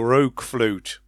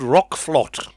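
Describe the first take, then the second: First: The name ends with a long 'flute' sound. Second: The name ends with a short 'flot' sound. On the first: "So it could be Rogue Flute" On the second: "I think that's how you pronounce it"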